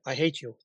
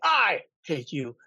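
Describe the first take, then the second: First: It is said flatly, without feeling. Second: It is said with real, intense feeling.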